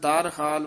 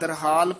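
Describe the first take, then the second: First: It is split into two separate parts. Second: It is said as one joined word. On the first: The speaker calls it wrong. "ਵੱਖਰਾ ਨਹੀਂ ਕਹਿਣਾ" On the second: The speaker calls it right. "ਇਕੱਠਾ ਹੀ ਕਰਨਾ ਹੈ"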